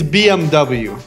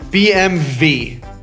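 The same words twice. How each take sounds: First: The letters are said with English pronunciation. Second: The letters are said with Turkish pronunciation. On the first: "It's B M W" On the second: "Turkish people say B M W"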